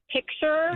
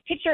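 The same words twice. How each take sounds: First: The k sound in the middle is pronounced. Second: The k sound in the middle is dropped. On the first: The speaker calls it right. "like P I C" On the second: The speaker calls it wrong. "they don't say the C"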